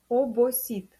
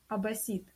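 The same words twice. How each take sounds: First: Every o is pronounced as a clear o. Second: The o vowels are reduced toward an a sound. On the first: The speaker calls it right. "Четко обосит" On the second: The speaker calls it wrong. "Мы не можем сказать обосит"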